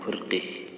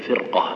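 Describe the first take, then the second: First: The final vowel is tilted toward e. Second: The final vowel stays open, without tilting. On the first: The speaker calls it wrong. "ما يقول فرقه" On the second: The speaker calls it right. "يقول فرقة"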